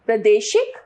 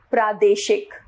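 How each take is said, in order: First: प्रादेशिक with short 'pra'; wrong pronunciation. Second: Said in the usual way. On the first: Shown as a demonstration. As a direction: say प्रादेशिक as pruh-day-shik. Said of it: "अशुद्ध रूप". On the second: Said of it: "इसका शुद्ध रूप".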